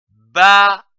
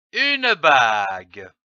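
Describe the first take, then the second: First: "bague" split into a loud ba, then gue; syllable by syllable. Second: Said in the usual way. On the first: Shown as a demonstration. Teacher joining syllables for readers, "bague" sounded out in two pieces. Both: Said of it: "L'association de ces deux syllabes".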